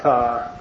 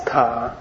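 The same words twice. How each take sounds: First: "tha" with an English th sound; wrong aspirated ending. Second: "ta" with a real English T; correct T ending. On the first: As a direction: say "tha" with the H heard as th. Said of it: "It doesn't make any sense in English". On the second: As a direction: say "ta" with a hard T and no th sound. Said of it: "It's not tha, it's ta". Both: Shown as a demonstration.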